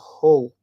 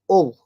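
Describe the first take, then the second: First: The word starts with a clear H sound. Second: The word starts with no H sound.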